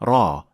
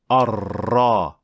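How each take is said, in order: First: The r sound is not trilled. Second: The r sound is trilled. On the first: The speaker calls it right. "that too is not how you pronounce the ra in the Quran" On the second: The speaker calls it wrong. "Even some Arabs trill their ra"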